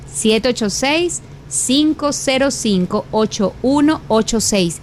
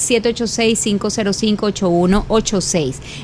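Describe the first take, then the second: First: The number is read at a slower pace. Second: The number is read at a faster pace.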